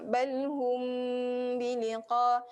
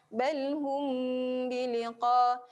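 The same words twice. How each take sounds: The two takes are said the same way.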